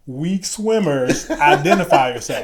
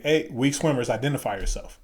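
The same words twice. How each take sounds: First: Loud, drawn-out instructor call-out; mock instructor announcement, slow and pointed; pointed repeat. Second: Said in the usual way. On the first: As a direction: stretch it out loud and high, aimed at one person. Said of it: "come stand closer to me so he can repeat it". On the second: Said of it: "so he can repeat it".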